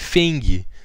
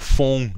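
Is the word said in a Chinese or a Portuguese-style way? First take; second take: Portuguese; Chinese. First: It is read with a Portuguese-style pronunciation. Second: It is said closer to the Chinese pronunciation.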